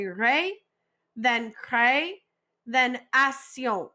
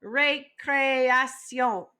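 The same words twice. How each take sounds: First: "ré", "cré", "action" as separate slow parts; split into syllables. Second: "Récréation" said slowly as one word, ray-cray-ah-syon; whole word together. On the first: Teacher splitting récréation into parts, slow and clear. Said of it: "break this up into three parts". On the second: Teacher models récréation whole for class, slowly. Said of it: "now say the whole word together". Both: Shown as a demonstration.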